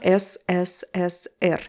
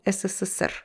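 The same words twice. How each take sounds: First: The letters are said separately with breaks. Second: The letters run together as one word. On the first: The speaker calls it wrong. "So it's not S S S R" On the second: The speaker calls it right. "one word"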